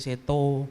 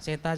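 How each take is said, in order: First: The final vowel is a rounded o sound. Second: The final vowel is an open a sound. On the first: This is how local people say the name. "A jadi O, orang sini tuh" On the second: This is the standard form of the name. "A jadi O"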